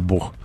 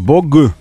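First: The final consonant is a fricative. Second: The final consonant is a hard stop. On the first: The speaker calls it right. "так называемая фрикативная буква «г»" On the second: The speaker calls it wrong. "не «бог»"

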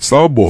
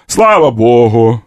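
First: It is said in plain modern Russian style. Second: It is said in an Old Slavonic church style. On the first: The speaker calls it wrong. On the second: The speaker calls it right.

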